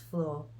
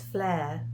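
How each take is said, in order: First: The word is said in a standard accent. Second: The word is said in a Scottish accent. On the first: "What it actually means is floor" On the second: "because you're Scottish, so it's flare"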